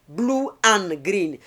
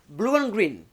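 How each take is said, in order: First: The vowels meet without a linking glide. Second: A 'w' glide links the two vowels. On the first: The speaker calls it wrong. "very difficult to pronounce" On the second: The speaker calls it right. "we attach W between"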